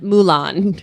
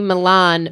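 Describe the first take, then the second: First: The first vowel sounds like 'moo' in Mulan. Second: The first vowel sounds like 'mih' in Milan. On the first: "she pronounces the city Milan Mulan" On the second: "the city Milan"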